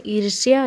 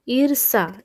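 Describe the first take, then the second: First: ईर्ष्या said as "irsh-ya", with sh and y; "ir-shi-ya" for ईर्ष्या; correct form. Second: ईर्षा said as "ir-sa", plain s, no y; "ir-sa", two syllables in ईर्षा; wrong form. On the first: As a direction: end ईर्ष्या on a clear "shya". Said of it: "ये हमारा शुद्ध रूप हो जाएगा". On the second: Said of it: "ये शुद्ध रूप नहीं". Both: Shown as a demonstration.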